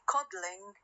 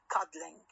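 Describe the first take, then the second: First: The L forms a syllable of its own. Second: The L does not form its own syllable. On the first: The word comes from the verb cuddle. "هذه تعتبر تعتبر syllabic L" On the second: The word is a small cod, cod plus ling. "It is not a syllabic one"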